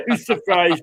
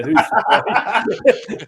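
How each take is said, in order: First: "Who's surprised" said through real laughter; laughing repeat. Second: Slow, stretched and mocking, with a laugh in it; drawn-out sarcasm. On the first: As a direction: laugh at your own jibe as you say it again. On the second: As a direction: drag out "who's surprised" to mock the rival. Sarcastic aside on Leeds fans. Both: Real, not acted.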